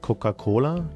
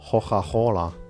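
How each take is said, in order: First: It is said with a standard Italian accent. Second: It is said with a Florentine accent.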